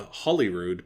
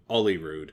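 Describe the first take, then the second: First: The word starts with an h sound. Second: The word starts without an h sound. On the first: "a place called Holyrood" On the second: "they call it Olyrood"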